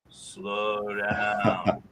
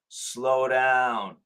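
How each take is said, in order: First: It is said at a middle pitch, slower. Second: It is said at a high pitch, fastest.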